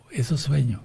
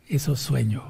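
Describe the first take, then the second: No difference in how they are said.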